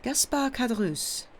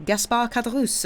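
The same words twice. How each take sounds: First: Put-on higher-pitched name in a heavy Italian accent. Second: Higher-pitched, lightly voiced innkeeper; innkeeper introducing himself. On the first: Priest repeating the innkeeper's name, heavy Italian accent. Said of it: "with a very heavy Italian accent". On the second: Innkeeper confirming his name to the stranger, eager to serve. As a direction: announce your own name as at your service. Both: A narrator's reading.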